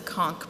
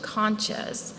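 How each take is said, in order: First: The word ends with a k sound. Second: The word ends with a ch sound. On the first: This is how people say it where the speaker grew up. "where I grew up on the Gulf Coast, we use the conch pronunciation" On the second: This is how some other people say it. "some people use the pronunciation conches"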